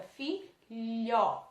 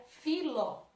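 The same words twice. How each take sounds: First: "filho" as fi... lho with a palatal lh; teacher showing the lh sound in "filho"; H pronounced. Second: "filo" with a plain l in place of lh; H left out. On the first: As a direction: sound out "filho" in two syllables, stretching the lh. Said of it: "ela é pronunciada". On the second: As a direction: say "filo" as fi-lo, hard clear l. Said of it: "a palavra ficaria filo". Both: Shown as a demonstration.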